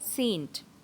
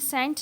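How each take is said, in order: First: The vowel is long, like sail. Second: The vowel is short, like sent. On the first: The speaker calls it right. "ये होता है word S A I N T" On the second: The speaker calls it wrong. "ये भी सेंट नहीं होता"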